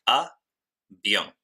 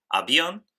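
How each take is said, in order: First: Avión split as a... vión, first part raised, second falling; syllable by syllable. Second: Said in the usual way. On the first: Shown as a demonstration. Teacher shows the diphthong in avión, syllable by syllable. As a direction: say a, pause, then vión as one syllable. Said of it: "tenemos dos sílabas". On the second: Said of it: "En el ejemplo".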